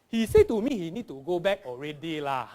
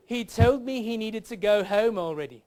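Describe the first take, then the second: First: Zigzag Singlish with a final "lah"; broad comic Singlish accent. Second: Careful, raised standard-English accent; proper English accent. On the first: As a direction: swing it up and down like a Singaporean. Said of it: "learn to speak like a Singaporean". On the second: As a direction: deliver it in a correct, grammatical English accent. Standard version before Singlish version. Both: Shown as a demonstration.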